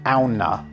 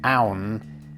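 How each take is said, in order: First: The name ends with an extra vowel sound. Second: The name ends on a consonant, with no vowel. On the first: This is how the company itself says it. "pronounce their name according to the Nordic word" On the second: This is how English-speaking audiences would say it. "I'm actually shortening it to Aun"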